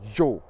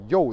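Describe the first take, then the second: First: It starts with a sound between j and y. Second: It starts with a plain y sound. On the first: The speaker calls it right. "it's like a j and a y all together" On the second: The speaker calls it wrong. "the Spanish don't even say yo"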